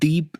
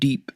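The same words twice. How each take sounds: First: The d is soft, with a slight th sound. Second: The d is a hard, plain English d.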